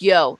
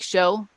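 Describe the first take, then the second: First: It starts with a 'y' sound, standard style. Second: It starts with a 'sh' sound, Argentinian style.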